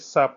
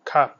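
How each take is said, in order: First: The word begins with an s sound. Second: The word begins with a k sound. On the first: The speaker calls it wrong. "doo ko liyee saap déedéet" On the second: The speaker calls it right. "kon boobaa kaap la"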